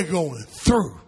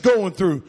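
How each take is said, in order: First: GOING THROUGH lower and drawn out, weight on THROUGH; weighty emphasis. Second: Said in the usual way. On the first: Shown as a demonstration. Preacher stressing these people suffer more than just going through, weighty emphasis. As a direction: say "going through" slowly and heavily, dropping the pitch.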